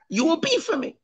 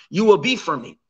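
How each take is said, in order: First: बहुत ऊँचे सुर में "be" पर ज़ोर; high pitched, soft, leaning on "be"; stress on be. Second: Said in the usual way. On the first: Shown as a demonstration. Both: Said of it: "Why the emphasis on the making".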